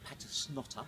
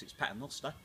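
First: "Patersnotter" said wrongly on purpose, pa-ters-NOT-ter; teasingly mangle the surname as "Patersnotter"; deliberate mispronunciation. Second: "Paternoster" said properly, pa-ter-NOS-ter; correct pronunciation. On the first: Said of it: "get you back for that one, for not being able to pronounce my surname". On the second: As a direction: set the record straight with "Paternoster". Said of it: "of course, it's Paternoster". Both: Shown as a demonstration.

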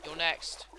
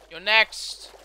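First: Said in the usual way. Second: Loud punch on "next", lifting at the end; louder mock threat. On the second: Gamer taunting a boss to slay, loud mock threat.

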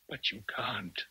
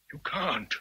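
First: Unvoiced, softer whisper of "But you can't."; whispered plea. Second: Said in the usual way. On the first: Rochester pleading with Jane.

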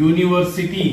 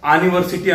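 First: University starting with a "you" sound; "university" with a y-glide and long oo; correct pronunciation. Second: ಆನಿವರ್ಸಿಟಿ said as "aa-ni-var-si-tee"; ಆನಿವರ್ಸಿಟಿ, university misread with an "aa" vowel; wrong pronunciation. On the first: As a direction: say university as "yoo-ni-var-si-tee". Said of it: "ಯು ಅಂತ pronounce ಮಾಡಿದ್ವಿ". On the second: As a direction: open ಆನಿವರ್ಸಿಟಿ on a long "aa", no y-glide. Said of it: "ಅನ್ನಲ್ಲ". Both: Shown as a demonstration.

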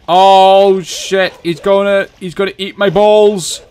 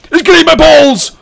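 First: High, loud panicked cry; rising panic. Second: Very high, full-volume panicked scream. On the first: Player sees it coming for him, panicked. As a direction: cry out in alarm as danger closes in. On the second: Player under attack in game, screaming in panic. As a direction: shriek it in sheer alarm. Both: Real, not acted.

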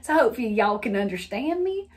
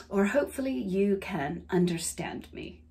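First: Folksy Southern y'all; Southern lilt, stretched "understand"; Southern accent. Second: Lower, softer, careful non-Southern diction; carefully neutral, non-Southern accent. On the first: Hoping listeners understand her, Southern accent. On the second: Mock-correcting herself from y'all, non-Southern accent. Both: Shown as a demonstration. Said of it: "I've never actually talked like that".

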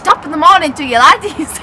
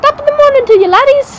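First: Loud Irish accent attempt. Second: High, loud Irish greeting; Irish accent. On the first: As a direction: copy a stage Irish greeting loudly. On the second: Shown as a demonstration. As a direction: call it out high in stage Irish.

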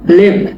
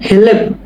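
First: Said in the usual way. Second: হেলেপ with an audible "he" before "lep"; sounded initial H. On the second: Shown as a demonstration. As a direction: say হেলেপ as two syllables, he-lep. (হেলেপ-এর শুরুতে "হে" স্পষ্ট উচ্চারণ) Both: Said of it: "হেলেপ বলতে হবে".

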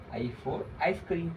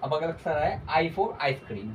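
First: "I for ice cream" spelled out very slowly, each word drawn apart; slow dictation. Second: Said in the usual way. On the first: Shown as a demonstration. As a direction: say "I for ice cream" slowly so kids can repeat.

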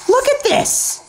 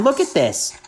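First: Much higher, squealing "Look at this!"; excited shout. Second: Said in the usual way. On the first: Real, not acted. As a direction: burst out in disbelief at the kills. Shows his kills to viewers.

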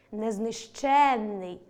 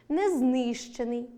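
First: Незнищенний with stress on ЩЕН, long double н; stress on the suffix. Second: Незнищений with stress on ЗНИ, single н; slow незнищений, stretching ЗНИ; stress on the root. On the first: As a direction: slowly stretch незнищЕННий. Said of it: "наголос на суфіксі". (наголос на суфіксі: незнищЕнний) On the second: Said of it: "наголос на корені". (наголос на корені: незнИщений) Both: Shown as a demonstration.

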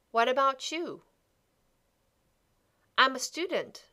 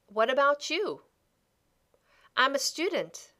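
The two takes are said the same way.

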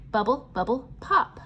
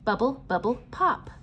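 Both takes have the same delivery.

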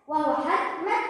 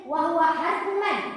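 No difference in how they are said.

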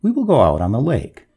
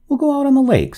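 First: Firm insistence, stressing WILL; measured, unbudging resolve. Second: Higher, louder burst of resolve; sudden high-pitched decision. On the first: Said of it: "said the master firmly". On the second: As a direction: announce it as if jumping up. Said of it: "starting up". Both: A narrator's reading.

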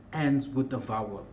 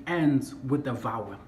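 The two takes are said the same way.

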